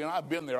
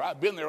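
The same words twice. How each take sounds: First: I've hit hard, been and there falling away; stress on I've. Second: Been pushed harder than I've, then there; stress on been. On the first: Preacher to his friend, weight on I've. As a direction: lean on I've, then drop off. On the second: Preacher repeating it, weight now on been. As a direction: land on been the second time. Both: Shown as a demonstration.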